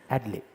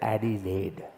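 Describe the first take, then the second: First: The vowels are clipped and barely sounded. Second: The vowels are fully pronounced. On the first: The speaker calls it right. "they don't pronounce vowels there" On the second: The speaker calls it wrong. "you cannot say Adelaide"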